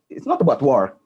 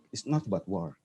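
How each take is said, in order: First: Said in the usual way. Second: Softer repeat, dropping the voice low; quiet repeated emphasis; quiet echo. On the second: Real, not acted. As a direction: say it again, almost to yourself.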